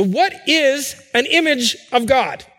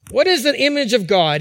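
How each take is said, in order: First: What drawn out slow and weighty, falling at the end; a preacher's slow, deliberate opening question. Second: Is leaned on, quicker pace, falling close; a quicker restatement pressing on the word is; stress on is. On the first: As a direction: ask "So what is an image of God?" slowly, letting each word land. Preacher poses the key question. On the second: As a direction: repeat "What is an image of God?" with weight on is. Preacher repeats the key question. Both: Acted.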